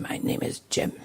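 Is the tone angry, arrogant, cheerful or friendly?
angry. It is said in an angry tone. The speaker is hostile to the listener. "or very angry"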